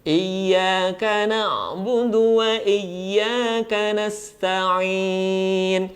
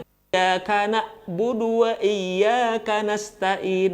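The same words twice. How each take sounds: First: "Iyyaka na'budu wa iyyaka nasta'in" chanted slowly, ain voiced from the throat; flowing ain. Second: "iyyaka na'budu wa iyyaka nasta'in" with ain softened into a plain a; wrong plain A. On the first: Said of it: "kalau ain mati masih nampak ada suara yang mengalir". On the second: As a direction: recite "na'budu" and "nasta'in" without the throaty ain. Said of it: "Bedakan A dengan A". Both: Shown as a demonstration.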